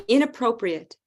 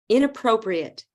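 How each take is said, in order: No difference in how they are said.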